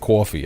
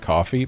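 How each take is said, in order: First: It is said with a New York accent. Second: It is said with a plain accent. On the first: "pronounce things like I'm from New York" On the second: "I just said coffee"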